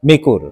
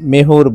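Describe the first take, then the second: First: The middle consonant is a hard k sound. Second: The middle consonant is a soft h sound. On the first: This is the standard language form. "শুদ্ধ ভাষায় মেকুর বলা হয়" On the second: This is the regional dialect form. "আঞ্চলিক ভাষায় মেহুর বলে"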